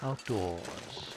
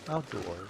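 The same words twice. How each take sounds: First: It is drawn out in a posh, snobby accent. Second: It is said plainly, without a posh drawl. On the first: The speaker calls it right. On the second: The speaker calls it wrong.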